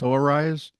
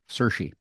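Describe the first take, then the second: First: The name is read as it looks, like Soares. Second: The name is said with its native sound, Sersha. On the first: This is how the spelling seems to read. The speaker calls it wrong. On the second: This is how the name is really said. The speaker calls it right.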